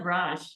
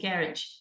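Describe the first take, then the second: First: It is said with an American pronunciation. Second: It is said with a British pronunciation. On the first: "It was not garage" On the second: "I would say garage, because British English says garage"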